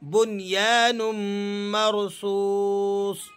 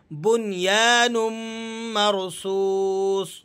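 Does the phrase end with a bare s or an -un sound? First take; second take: bare s; bare s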